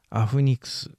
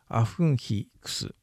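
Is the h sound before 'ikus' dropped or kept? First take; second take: dropped; kept. First: The h sound drops and n links forward. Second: The h sound is kept and words are separate.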